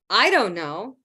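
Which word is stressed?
I. The stress falls on the word I. Someone else may know. "Maybe she does, but I don't know"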